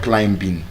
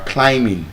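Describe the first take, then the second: First: The b is sounded before the ending. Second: The b is silent before the ending. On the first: The speaker calls it wrong. "not climbing" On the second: The speaker calls it right. "You are climbing"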